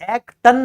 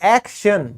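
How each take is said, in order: First: The middle consonant is pronounced as 't'. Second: The middle consonant is pronounced as 'sh'. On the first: The speaker calls it wrong. "एक्टन नहीं बोलेंगे ना" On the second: The speaker calls it right. "ट किस में बदल गया, श में"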